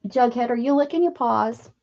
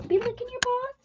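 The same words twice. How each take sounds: First: Said in the usual way. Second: Pet talk. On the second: Real, not acted. Gently scolding Jughead for licking paws, high pet-talk voice. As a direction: chide the dog sweetly in a pet voice. Talking to the dog.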